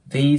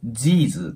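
First: It begins with a th sound. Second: It begins with a z sound. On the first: The speaker calls it right. "th の音になるので、上下の歯で下を挟んで" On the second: The speaker calls it wrong. "日本語で言うthese とかz の音ではなく"

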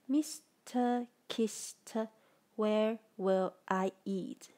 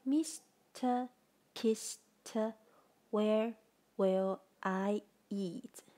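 First: The phrase is said at a faster pace. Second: The phrase is said at a slower pace.

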